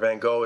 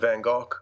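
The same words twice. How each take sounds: First: The name is said the American way. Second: The name is said a non-American way.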